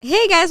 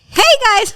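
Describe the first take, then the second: First: It is said calmly, with little energy. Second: It is said excitedly, with more energy.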